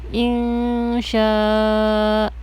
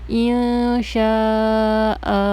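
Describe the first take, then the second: No difference in how they are said.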